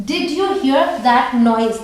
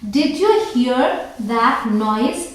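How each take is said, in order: First: Very slow, the question dropping down at the end; falling question tune. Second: Very slow, the question lifting up at the end; rising question tune. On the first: Teacher repeats the example sentence to her students slowly with a falling tune. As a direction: repeat it slowly and let it fall. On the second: Teacher reads the example sentence to her students slowly with a rising question tune. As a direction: read it out slowly as a real question. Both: Shown as a demonstration. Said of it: "तो अब sentences देख लेते हैं".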